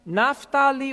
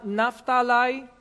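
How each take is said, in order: First: "Naphtali" ending in a "lee" sound. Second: "Naphtali" ending in a "lie" sound. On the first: Teacher listing the tribes for the congregation, "Naphtali" ending in lee. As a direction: say "Naphtali" as NAF-ta-lee, last syllable like "lee". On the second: Teacher giving the alternative pronunciation, "Naphtali" ending in lie. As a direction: say "Naphtali" as NAF-ta-lie, rhyming the last syllable with "eye". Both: Shown as a demonstration. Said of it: "or sometimes pronounced".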